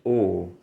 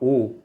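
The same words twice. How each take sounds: First: The vowel is said with a falling pitch. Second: The vowel is said without a falling pitch. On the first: The speaker calls it right. "c'est O. Ça descend" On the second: The speaker calls it wrong. "c'est pas O"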